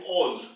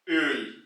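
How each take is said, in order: First: The vowel is a plain back o. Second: The vowel is a rounded front ö. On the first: The speaker calls it wrong. "once you remove the umlaut, it will be converted to all" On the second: The speaker calls it right. "you have to use the word with the umlaut"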